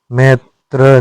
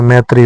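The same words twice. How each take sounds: First: मैत्र ending without ई; wrong form. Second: मैत्री ending in a long ई; correct form. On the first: Teacher voicing the wrong form, मैत्र. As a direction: say मैत्र cut short. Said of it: "नहीं होता है". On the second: Teacher giving the correct form, मैत्री. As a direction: say मैत्री with the final ई. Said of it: "होता है". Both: Shown as a demonstration.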